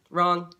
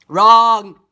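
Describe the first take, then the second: First: Said in the usual way. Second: One drawn-out, very loud buzzer-like word; loud blare. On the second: Real, not acted. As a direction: blare the correction at full volume. Second take, blared for emphasis.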